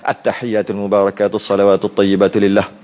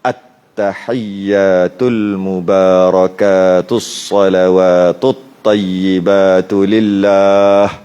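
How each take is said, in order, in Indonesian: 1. Dibaca dengan sangat cepat, dengan bunyi yang terpotong-potong. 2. Dibaca dengan lambat, dengan bunyi panjang yang ditahan. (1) "pendek sangat" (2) "kalau baca slow-slow"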